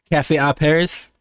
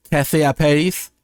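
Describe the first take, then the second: First: Said in the usual way. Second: PARIS with a tapped r, rising at the end; French-style pronunciation. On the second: Shown as a demonstration. Streamer trying out a French title, French-style pronunciation. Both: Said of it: "a person from Paris say Paris".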